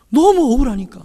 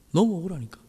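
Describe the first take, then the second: First: Higher, stressing 너무 with a fall; emphatic cry. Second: Softer, 너무 said lightly with a fall; soft echo. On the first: Pastor to the congregation, emphatic cry. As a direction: press on 너무 억울하니까. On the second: Pastor repeating himself to the congregation, soft echo. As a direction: murmur 너무 억울하니까 back. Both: Shown as a demonstration.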